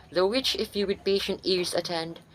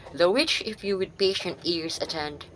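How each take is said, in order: Both takes have the same delivery.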